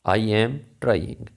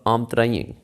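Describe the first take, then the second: First: I and am are said as separate words. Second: I and am merge into one syllable.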